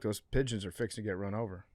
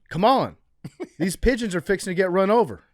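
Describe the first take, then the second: First: It is said as a calm, flat statement. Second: It is said as an excited exclamation.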